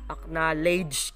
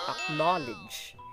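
First: The last syllable sounds like 'ledge'. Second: The last syllable is reduced, not like 'ledge'. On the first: The speaker calls it wrong. "Ginagawa natin siyang parang ledge yung dulo niya" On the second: The speaker calls it right. "It should be acknowledge"

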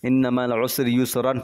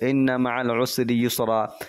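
First: The last word ends with an n sound. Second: The last word ends in a long a vowel. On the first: The reading continues on without stopping. "मिला के पढ़ेंगे तो" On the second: The reader stops at this word. "यहाँ पे हम रोकेंगे तो"

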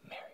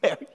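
First: It is said softly and gently. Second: It is said with a chuckle.

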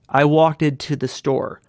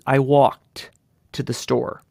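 First: The ending -ed is a separate stressed syllable. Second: The ending -ed is a light t sound. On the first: The speaker calls it wrong. "the learner wants to stress that ed" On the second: The speaker calls it right. "it's a light touch. It's more of a t than anything"

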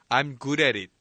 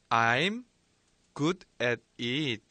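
First: The sentence is said at a faster pace. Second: The sentence is said at a slower pace.

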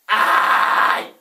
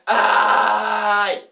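First: It is a yell with raspy false chord distortion. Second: It is a plain, clean yell.

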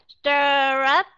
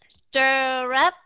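No difference in how they are said.

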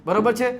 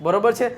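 No difference in how they are said.

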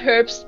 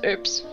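First: The word begins with an h sound. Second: The word begins without an h sound. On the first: The speaker calls it wrong. "It's not herbs" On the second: The speaker calls it right. "You don't pronounce the H in her herbs"

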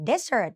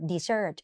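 First: The stress is on the first syllable. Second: The stress is on the second syllable. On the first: It means a sandy wasteland. "ถ้าทะเลทรายอ่าน desert เน้นตัวหน้า" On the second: It means a sweet food eaten after a meal. "dessert เน้นตัวหลัง"

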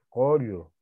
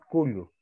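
First: The first vowel sounds like o. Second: The first vowel sounds like u. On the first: The speaker calls it right. "Collo, ¿ves? Por este fonema. Esta U cambia a O" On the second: The speaker calls it wrong. "No decimos cullo"

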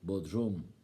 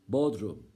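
First: The stress is on the last syllable. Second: The stress is on the first syllable. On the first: It means the basement of a house. "Bakın son hecede" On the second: It names the holiday town. "Tatil beldesi Bodrum ilk hecede"

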